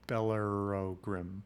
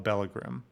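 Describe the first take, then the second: First: The name is said long, with extra syllables. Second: The name is said short, in two syllables. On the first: The speaker calls it right. "It's Bellerogrim" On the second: The speaker calls it wrong. "I'm pronouncing that wrong"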